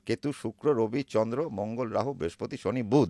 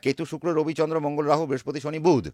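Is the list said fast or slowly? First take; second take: slowly; fast. First: The list is said at a slow pace. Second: The list is said at a quick pace.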